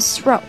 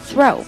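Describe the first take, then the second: First: It begins with a hissing s-like sound. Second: It begins with a th sound, tongue between teeth. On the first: The speaker calls it wrong. "不要发s，不要发throw，不好听" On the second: The speaker calls it right. "舌头要伸出来啊，牙齿要咬着你的舌头"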